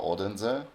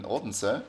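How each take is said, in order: First: "Odense" in three syllables, OD-en-zuh, questioning rise; alternative pronunciation attempt. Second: "Odense" run together as OD-n-suh, questioning rise; unsure pronunciation. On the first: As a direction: try "Odense" with a full middle vowel and a z. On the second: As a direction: say "Odense" tentatively, middle vowel swallowed, with an s. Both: Real, not acted. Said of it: "I don't know how to pronounce it".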